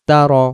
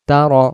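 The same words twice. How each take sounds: Both takes have the same delivery.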